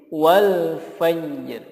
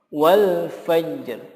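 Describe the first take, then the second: No difference in how they are said.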